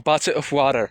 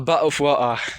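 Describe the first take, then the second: First: It is said in an American accent. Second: It is said in a British accent. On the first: "in American English, we say bottle" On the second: "But in British accent, we say"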